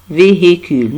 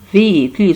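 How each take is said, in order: First: The middle h is audibly pronounced. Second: The middle h is silent. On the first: The speaker calls it wrong. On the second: The speaker calls it right.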